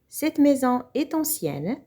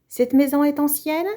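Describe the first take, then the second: First: It is said as a plain statement. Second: It is said with question intonation.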